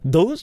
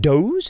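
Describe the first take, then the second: First: The word begins with a soft th sound. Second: The word begins with a hard d sound.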